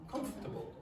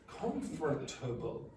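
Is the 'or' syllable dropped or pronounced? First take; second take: dropped; pronounced. First: The 'or' syllable is dropped. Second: The 'or' syllable is fully pronounced. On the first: The speaker calls it right. "That or disappears" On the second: The speaker calls it wrong. "Nobody says that"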